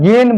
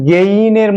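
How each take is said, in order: First: গেইন cut to "gen", one plain e; pure e in গেইন; everyday "gen". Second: গেইনের said slowly as "ge-iner"; correct "gein" glide. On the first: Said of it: "আমরা গেইন বলে উচ্চারণ করি". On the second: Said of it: "actually উচ্চারণটা গেইনের মতো হয়". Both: Shown as a demonstration.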